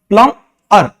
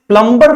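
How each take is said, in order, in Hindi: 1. बीच में b की ध्वनि साइलेंट होती है। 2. बीच में b की ध्वनि बोली जाती है। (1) "बी is silent here टू" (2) "इसको हम प्लम्बर नहीं बोलेंगे"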